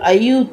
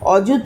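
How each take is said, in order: First: The word begins with an 'ay' sound. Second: The word begins with a plain 'o' sound. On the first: This is the older way used in these songs. "আয়ুত করে উচ্চারণ করা হতো" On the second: This is the ordinary modern Bengali way. "আমরা যেটা বলি"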